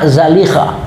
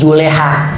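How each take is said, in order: First: The name is said as Zalikha. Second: The name is said as Juleha. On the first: This is the form the scholars give. "Sebenarnya dobit yang diberikan ulama" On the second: This is the simplified Betawi form. "Dalam bahasa Betawi"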